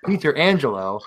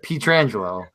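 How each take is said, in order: First: It is said like two words, Peter and Angelo. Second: It is said as one run-together word. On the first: The speaker calls it wrong. "I said P- Peter Angelo instead of Pietrangelo" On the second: The speaker calls it right. "instead of Pietrangelo"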